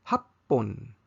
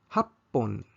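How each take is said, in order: Both takes have the same delivery.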